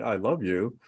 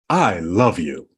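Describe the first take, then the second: First: It sounds flat and reluctant. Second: It sounds warm and heartfelt.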